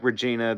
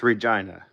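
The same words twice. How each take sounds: First: It is said like the familiar personal name. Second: It is said the way the city says it. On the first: This is how the name is usually said. "spelled like Regina as we pronounce it" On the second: This is how the city's name is actually said. "but uh, pronounced Regina"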